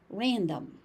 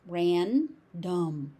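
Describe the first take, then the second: First: Said in the usual way. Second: "Random" split as ran, dom; syllable by syllable. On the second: Shown as a demonstration. Teacher breaking the word down for learners, syllable by syllable. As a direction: pause between the two syllables of "Random".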